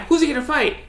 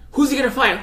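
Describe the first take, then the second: First: The same question, pitched even higher and more eager; imitating an announcer climbing to a peak; announcer question pushed higher. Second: A much higher, eager announcer question; imitating an eager announcer, building up; hyped announcer question. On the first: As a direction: push it up another notch of excitement. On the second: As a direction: ask it like a commentator dying to know. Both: Mimicking hyped fight announcers.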